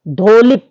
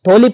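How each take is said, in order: First: The word begins with a breathy d sound. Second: The word begins with a breathy t sound. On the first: The speaker calls it wrong. "धोलिप की बजाय इसको थोलिप कहा जाता है" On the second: The speaker calls it right. "इसको धोलिप ना कहकर थोलिप कहें तो बेटर रहेगा"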